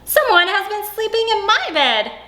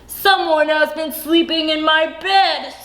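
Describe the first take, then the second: First: It is said in a middle-sized voice. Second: It is said in a great big, deep voice.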